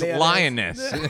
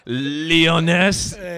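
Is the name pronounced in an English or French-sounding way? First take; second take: English; French. First: The name sounds like the English word lioness. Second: The name is given a French-sounding pronunciation. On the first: The name means a female lion. The speaker calls it right. "It's Lioness" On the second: The name sounds fancy and foreign. The speaker calls it wrong. "don't make it all French"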